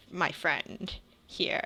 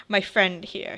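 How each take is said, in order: First: Slow, deliberate My friend here; weighted pause, then My friend here; pause before my friend here. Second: Said in the usual way. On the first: Acted. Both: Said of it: "he pauses before he says".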